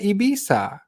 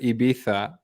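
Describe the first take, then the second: First: The name is said with an English pronunciation. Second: The name is said with a Spanish pronunciation. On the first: "if you're not Spanish, just pronounce it Ibiza" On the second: "the Spanish do pronounce it Ibiza"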